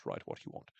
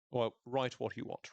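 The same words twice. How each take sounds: First: Much lower and softer, tossed off under the breath; low, quiet mock grumble of write what you want; muttered aside. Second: Said in the usual way. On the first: Shown as a demonstration. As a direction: drop it to a grumble to yourself.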